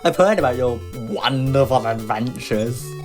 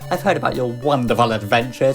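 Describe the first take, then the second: First: It is said in a mocking, sarcastic tone. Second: It is read in a plain, sincere tone. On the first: The compliment is not meant genuinely. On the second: The compliment is meant genuinely.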